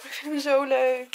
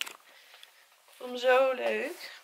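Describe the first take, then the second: First: Said in the usual way. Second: Zo stretched slow and rising; drawn-out delight. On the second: Real, not acted. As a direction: linger long on zo, rising.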